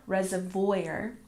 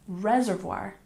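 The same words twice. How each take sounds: First: The stress is on the second syllable. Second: The stress is on the first syllable. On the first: The speaker calls it wrong. "not reservoir" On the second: The speaker calls it right. "We stress the first syllable, and we pronounce reservoir"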